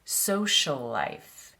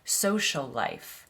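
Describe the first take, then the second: First: The two s sounds are joined together. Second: The same.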